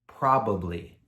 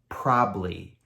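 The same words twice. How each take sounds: First: All syllables are said fully and clearly. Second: The word is shortened, with syllables dropped. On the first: This is the formal textbook form. "formal grammar English" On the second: This is the casual everyday form. "A native speaker of English is going to change this word to"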